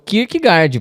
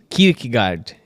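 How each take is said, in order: First: It is said with a Brazilian Portuguese pronunciation. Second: It is said with a Danish-like pronunciation. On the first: This is how the speaker usually says the name. "É o Kierkegaard para mim" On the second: This is how the name really sounds. "se você for falar de verdades"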